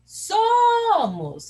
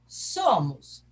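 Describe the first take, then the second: First: SO in "Somos" called out long, high and loud; stress on SO. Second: Said in the usual way. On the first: Shown as a demonstration. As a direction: stretch and belt the first syllable of "Somos". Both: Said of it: "Quem que é forte?".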